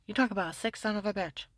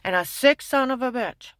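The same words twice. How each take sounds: First: Said in the usual way. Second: Sick punched, loud and higher; indignant loud repeat; louder, higher repeat. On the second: Real, not acted. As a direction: shout the insult again with force.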